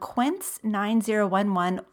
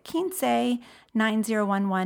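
First: Quince is pronounced as an English word. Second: Quince is pronounced as a Spanish word.

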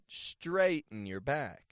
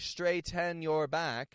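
First: The T in straighten is a glottal stop. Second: The T in straighten is fully released. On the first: The speaker calls it right. "but straighten your back. The T-E-N becomes a glottal T" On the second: The speaker calls it wrong. "I'm not saying straighten your back"

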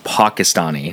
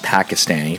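First: Said with the NPR-style pronunciation. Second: Said with an everyday pronunciation, not the NPR-style one. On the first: The speaker calls it right. "That's how they say it in NPR" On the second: The speaker calls it wrong. "Not Pakistani"

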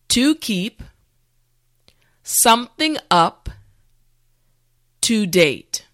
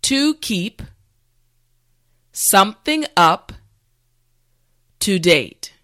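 Both takes have the same delivery.

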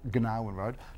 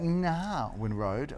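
First: The name begins with a hard G sound. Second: The name begins without a G sound. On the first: The speaker calls it wrong. "otherwise it'd be called Gnarwin Road" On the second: The speaker calls it right. "with a silent G"

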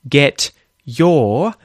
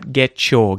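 First: The t and y are said as separate sounds. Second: The t and y merge into a ch sound.

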